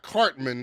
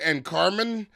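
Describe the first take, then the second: First: The name is said with the t sound. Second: The name is said without the t sound. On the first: The speaker calls it right. "like not" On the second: The speaker calls it wrong. "He said"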